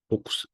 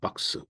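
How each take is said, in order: First: The vowel is a rounded 'oh' sound. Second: The vowel is an open 'ah' sound.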